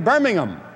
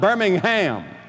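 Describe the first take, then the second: First: The stress is on the first syllable. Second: The stress is on the last syllable. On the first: This is how the British say it. "over there they say Birmingham" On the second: This is how the American city is said. "I was putting the emphasis on the ham"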